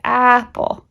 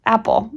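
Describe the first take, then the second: First: "apple" with its first vowel held long, raised pitch; drawn-out "apple", vowel first; sounding out. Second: Said in the usual way. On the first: Shown as a demonstration. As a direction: stretch the "a" of "apple" like a child practising. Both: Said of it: "so they'd be like".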